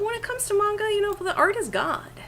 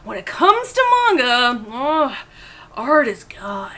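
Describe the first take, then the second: First: It is said in a plain, everyday way. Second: It is said with overdone, dramatic energy.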